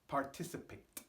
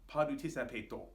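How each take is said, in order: First: The word ends without an added vowel. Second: The word ends with an added 'o' vowel. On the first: The speaker calls it right. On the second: The speaker calls it wrong.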